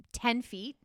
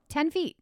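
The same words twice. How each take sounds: First: Said in the usual way. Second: "Ten feet" higher and punched, incredulous; stressed in disbelief. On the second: Retold or imitated. Scoffing at the movie's tiny ten feet, "Ten feet" stressed high.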